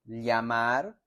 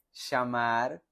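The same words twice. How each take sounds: First: "llamar" with a y-like ll; one region's way of saying "llamar"; regional ll. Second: "llamar" with a sh-like ll; regional ll. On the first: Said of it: "En algunos lugares dicen". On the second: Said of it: "en otros lugares dicen". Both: Shown as a demonstration.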